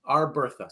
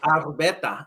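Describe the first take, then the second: First: The name is said without a Spanish-style accent. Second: The name is said with a Spanish-style accent.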